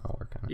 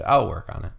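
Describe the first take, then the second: First: Softly whispered aside repeating I'll work on it; whispered to himself. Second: Said in the usual way. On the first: Real, not acted. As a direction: breathe the words under the breath.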